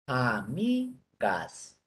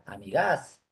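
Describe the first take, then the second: First: The stress is on the middle syllable. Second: The stress is on the last syllable. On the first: The speaker calls it right. "sílaba mi" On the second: The speaker calls it wrong. "Si fuera la última"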